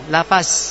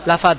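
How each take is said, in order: First: The last consonant is a plain z sound. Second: The last consonant is an emphatic dh sound. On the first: The speaker calls it wrong. "Kalau lafaz jadinya za, zai. Zayun" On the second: The speaker calls it right. "Kalau za atau vo, ketika kita ngucap lafad, masih tetap lafad"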